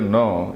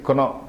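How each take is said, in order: First: The word starts with an N sound. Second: The word starts with a K sound.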